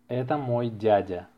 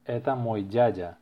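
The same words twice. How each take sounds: The two takes are said the same way.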